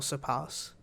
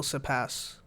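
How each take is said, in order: First: Surpass with a long "ah", like "sur-pahs"; long-a pronunciation. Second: Surpass with the short a of "cat"; short-a pronunciation. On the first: Host correcting own question to co-host, long-a surpass. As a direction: open the last vowel of surpass to "ah". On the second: Host putting a question to co-host, short-a surpass. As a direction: say the end of surpass to rhyme with "gas". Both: Shown as a demonstration. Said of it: "will surpass or surpass?".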